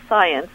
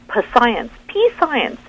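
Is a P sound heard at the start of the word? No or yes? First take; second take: No; Yes. First: The word starts with an S sound, no P. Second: The word starts with an audible P sound. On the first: The speaker calls it right. "it's just, you know, sci, science" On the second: The speaker calls it wrong. "oh my gosh, p-science, that was the flack"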